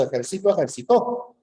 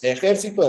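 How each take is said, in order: First: Ejército stressed on É, then ejercitó stressed on the final tó; stress moving to the end. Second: Ejército with the stress on the first syllable, É. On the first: Student contrasting ejército and ejercitó by moving the stress to tó. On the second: Student reading Ejército aloud, stressing the first syllable É. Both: Shown as a demonstration. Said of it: "acá tiene tres acentos".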